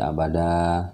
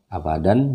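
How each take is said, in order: First: The word ends with a long a vowel. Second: The word ends with an n sound. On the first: "panjang dua harakat" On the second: "Abadan jadi abada"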